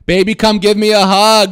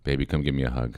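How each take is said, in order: First: It is said very loudly. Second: It is said at a quiet volume.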